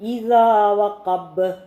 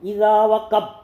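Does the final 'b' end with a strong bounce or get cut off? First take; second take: strong bounce; cut off. First: The final 'b' is released with a heavy bounce. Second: The final 'b' is stopped short without release. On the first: The speaker calls it right. "ബ് ബ് ഒരല്പം കട്ടിയിൽ പറയുക" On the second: The speaker calls it wrong. "അങ്ങനെ വായിച്ച് നിർത്തിക്കളയും"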